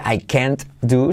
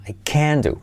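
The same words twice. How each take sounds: First: "can't" with its final T sounded; T pronounced in CAN'T. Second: Stressed "can" running straight into "do"; stressed CAN, silent T. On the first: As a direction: finish "can't" on a T before "do". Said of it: "So, no se dice". ("can't" pronunciando la T final) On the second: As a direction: lean on "can" and leave off any T. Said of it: "Se acentúa el can y no se pronuncia la T". ("can" acentuado, sin pronunciar la T) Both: Shown as a demonstration.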